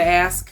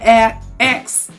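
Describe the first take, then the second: First: The word ends with an 'sk' sound. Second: The word ends with a 'ks' sound. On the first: The speaker calls it right. "Like A S K, not A X E" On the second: The speaker calls it wrong. "A- X instead of ask"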